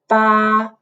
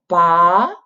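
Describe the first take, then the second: First: The pitch stays level and flat throughout. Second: The pitch rises steadily from low to high. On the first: "which usually make a tone flat" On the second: "like a rising line"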